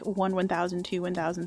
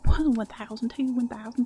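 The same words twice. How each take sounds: First: The count is said in a plain accent. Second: The count is said in a Southern accent. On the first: "I normally whisper count to myself like" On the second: "today I was doing it in a southern accent"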